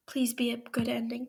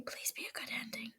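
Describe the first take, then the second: First: Said in the usual way. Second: Much softer, fast whispered wish; fast faint plea. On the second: Real, not acted. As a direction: rush it under your breath. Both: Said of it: "hopeful plea repeated".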